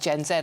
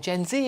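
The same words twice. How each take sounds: First: The letter Z is said as zed. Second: The letter Z is said as zee.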